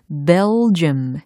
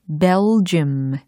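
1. 뚜렷한 L 소리가 J 소리로 이어져요. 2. 뚜렷한 L 소리가 J 소리로 이어져요.

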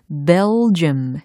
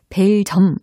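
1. 뚜렷한 L 소리가 J 소리로 이어져요. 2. J 앞에서는 L 소리가 들리지 않아요. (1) "bell 이렇게 끝소리에 l 사운드 만들어주신 다음에 j, j, j 사운드로 연결을 하는 겁니다" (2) "벨점 아니에요"

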